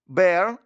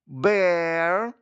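First: The word is said quickly. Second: The word is said slowly. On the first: "А тепер швидко" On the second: "скажіть це слово повільно"

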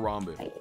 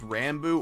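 First: The first syllable sounds like 'ron'. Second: The first syllable sounds like 'ran'. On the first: "the Ron" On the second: "the Ran"

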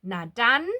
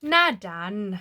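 First: The pitch goes up a little higher. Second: The pitch stays level without rising. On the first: Let's go, let's get started. "พูดเสียงขึ้นมาอีกหน่อยหนึ่งนะคะ" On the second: Fine, so be it. "หน้าดันแล้วก็แล้วไป"

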